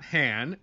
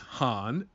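First: The vowel is flat, as in 'hand'. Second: The vowel is open, as in 'father'. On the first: This is how the name had been said for years. The speaker calls it wrong. "not Han, as I've been pronouncing it over the years" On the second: This is the name as the film says it. The speaker calls it right. "it is Han ... I think they should have spelled it H-A-H-N"

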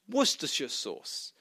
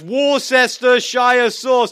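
First: Worcestershire is said with few syllables. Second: Worcestershire is said with many syllables. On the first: The speaker calls it right. "It's actually pronounced" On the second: The speaker calls it wrong. "How many syllables he's using, I have no idea. But it was like a mouthful"

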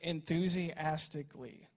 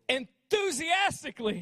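First: It is said flatly, without energy. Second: It is said with lively energy.

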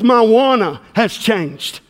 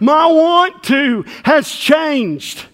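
First: "Want to" is run together as "wanna". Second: "Want to" is said as two full words.

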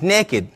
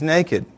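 First: The word has the folksy 'neck-id' pronunciation. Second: The word has the standard 'nay-kid' pronunciation. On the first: The person has no clothes on and is up to something. "The other way is naked" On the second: The person simply has no clothes on. "One way is naked"

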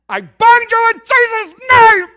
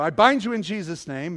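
First: It is screamed loudly. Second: It is said at normal volume.

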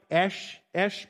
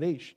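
First: The vowel is a short 'eh' sound. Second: The vowel is an 'ay' sound, as in beige. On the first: This is how a Hebrew speaker would say it. "If you were a Hebrew, you'd pronounce it probably more like Esh" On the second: This is how non-Hebrew speakers say it. "so we call it Aish"

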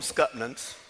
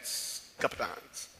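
First: The word is said with a t and ends in -nans. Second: The word is said with a p and ends in -nongs. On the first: This is how the speaker's own community said it. "We called them Scutnans" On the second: This form follows the spelling. "it should be pronounced Scuppernong"

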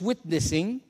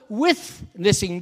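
First: The word begins with a plain 't' sound. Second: The word begins with a 'th' sound, like 'with'. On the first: It means proclaiming the message verbally. "which is emphasis on proclaiming, speaking verbally" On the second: It means being present with people in their struggles. "being with"

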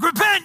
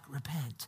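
First: It is yelled loudly. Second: It is said quietly, without yelling.

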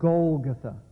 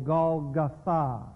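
First: The stress falls before the last syllable. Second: The stress falls on the last syllable.

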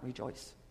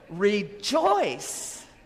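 First: The word is said quietly with flat energy. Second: The word is said loudly with strong excitement. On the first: The speaker calls it wrong. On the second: The speaker calls it right.

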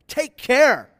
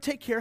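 First: It is said as a sharp warning. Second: It is said as a casual goodbye.

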